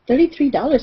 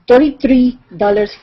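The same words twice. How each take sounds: First: It is said with a native English accent. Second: It is said with a thick foreign accent.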